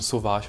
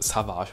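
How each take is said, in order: First: The first vowel sounds like 'o'. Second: The first vowel sounds like 'a'. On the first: The speaker calls it right. "Oder sowas wie eben Sauvage" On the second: The speaker calls it wrong. "und nicht Savage"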